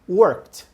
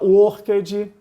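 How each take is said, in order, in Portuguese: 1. A terminação é rápida, com um som de T curto. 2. A terminação é prolongada, sem um T rápido. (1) "bem aceleradinho e vai um sonzinho de T aí nessa palavrinha no final" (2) "muita gente fala worked, danced, cooked, e esse som não existe"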